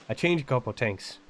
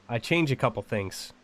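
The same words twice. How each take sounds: Both takes have the same delivery.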